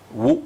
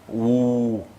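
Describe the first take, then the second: First: The vowel is short. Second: The vowel is long. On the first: "au lieu de ou" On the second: "un autre waouh qui le rend plus long"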